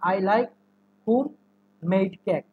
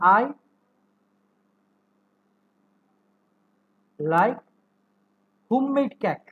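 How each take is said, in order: First: A break separates 'home' from 'made'. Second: 'Home' and 'made' run together as one word. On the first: The speaker likes home and makes cake. The speaker calls it wrong. "যদি ভেঙে ভেঙে বলি" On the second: The speaker likes cake made at home. The speaker calls it right. "Homemade একসাথে উচ্চারণ হবে"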